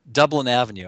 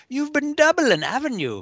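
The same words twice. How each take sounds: First: Said in the usual way. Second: Put-on "Dublin" said high in an Irish accent, like "doublin'"; "Dublin Avenue" in a high Irish leprechaun accent; Irish pun. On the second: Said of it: "an Irishman would".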